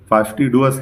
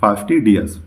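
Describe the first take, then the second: First: The syllable after 'd' has an 'oo' sound. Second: The syllable after 'd' has an 'ee' sound. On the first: The speaker calls it wrong. "फास्टीडुअस नहीं है" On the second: The speaker calls it right. "ये जो है फास्टीडियस है"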